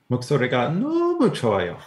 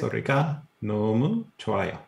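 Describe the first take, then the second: First: It is said with strong emotion. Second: It is said plainly, with little emotion.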